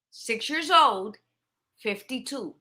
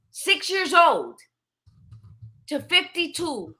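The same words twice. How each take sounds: First: Put-on "Six years old" said slowly, then "fifty-two" dropped much softer; slow, falling, fading repeat of "Six years old, fifty-two"; quiet repeat. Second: Put-on "six years old" drawn out slowly and pitched higher, "to fifty-two" stressed; slow, lifted emphasis on "six years old… to fifty-two"; emphatic. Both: Shown as a demonstration.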